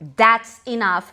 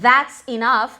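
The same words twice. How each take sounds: First: The first word starts with a d sound. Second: The first word starts with a th sound. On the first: "como that's enough" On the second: "Veja como Trump pronuncia that's enough"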